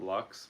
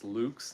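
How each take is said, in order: First: The word is pronounced the way the band says it. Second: The word is given its Latin pronunciation. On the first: The speaker calls it wrong. "not Lux, like they're saying" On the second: The speaker calls it right. "It's Latin. It's Lux"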